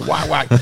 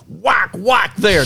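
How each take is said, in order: First: Quick, softer whack whack; whack sound effect. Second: Slow, drawn-out mock whack, higher; whack sound effect. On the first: Retold or imitated. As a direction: tap out two clipped whacks. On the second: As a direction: stretch out each whack like hitting the rock. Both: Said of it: "I like your sound effects on the whack".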